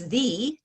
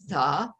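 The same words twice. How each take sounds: First: The vowel is a long 'ee' sound. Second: The vowel is a short, weak 'uh' sound. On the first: "I write it as T H E" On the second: "I write it as T H A"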